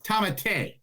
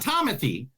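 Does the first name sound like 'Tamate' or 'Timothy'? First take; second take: Tamate; Timothy. First: The name sounds like Tamate, not like Timothy. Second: The name sounds like the usual English Timothy. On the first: The speaker calls it right. "It's Tamate" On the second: The speaker calls it wrong. "It's not Timothy"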